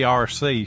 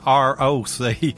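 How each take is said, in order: First: It is said as two letters, R C. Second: An extra 'oh' sound comes between R and C. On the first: This is how the aunt never said it. "she'd never say R C" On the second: This is how the aunt always said it. "She'd say R O C"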